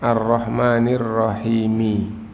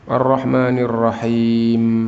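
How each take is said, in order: First: The last word ends with a final i vowel. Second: The last word ends without a final vowel. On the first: This is the full original form. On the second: This is the form used when stopping. "Kalau berhenti itu dimatikan gitu"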